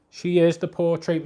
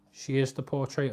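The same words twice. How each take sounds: First: IS hit high and loud; stress on is. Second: Said in the usual way. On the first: Shown as a demonstration. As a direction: lean hard on the word is.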